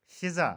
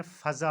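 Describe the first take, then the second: First: फ़िज़ा said fi-za, louder; फ़िज़ा as fiza; common mispronunciation. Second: फ़ज़ा said fa-za; फ़ज़ा as faza; correct pronunciation. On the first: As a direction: say फ़िज़ा with i first. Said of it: "ये फ़िज़ा नहीं होता". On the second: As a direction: say फ़ज़ा with a first. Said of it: "असल में फ़ज़ा होता है". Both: Shown as a demonstration.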